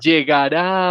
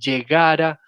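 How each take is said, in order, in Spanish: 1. El acento está en la última sílaba. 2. El acento está en la penúltima sílaba.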